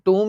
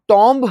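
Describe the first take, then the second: First: It sounds like 'toom' with no final b. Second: It sounds like 'tomb' with a final b. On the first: The speaker calls it right. "सही उच्चारण टूम ही होता है" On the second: The speaker calls it wrong. "वो हमारी गलती है, wrong pronunciation है"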